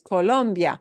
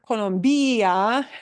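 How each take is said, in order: First: The stress falls on the syllable lom. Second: The stress falls on the syllable bi. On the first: The speaker calls it right. "It's Colombia. ... what we punch is second to the last" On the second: The speaker calls it wrong. "it's not Colombia"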